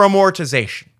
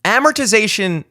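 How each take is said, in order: First: Amortization as uh-MOR-tih-ZAY-shun; preferred pronunciation. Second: Amortization as AM-er-tih-ZAY-shun, pitched up at first; disliked pronunciation. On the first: Podcaster voting for a favourite version, amortization as uh-MOR-tization. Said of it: "would have definitely voted". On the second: Podcaster objecting to the proper version, amortization as AM-ertization. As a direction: lean on the AM of amortization. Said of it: "doesn't sound like how you want". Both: Shown as a demonstration.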